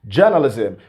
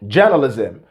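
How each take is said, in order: First: The R after the first vowel is silent. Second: The R after the first vowel is silent.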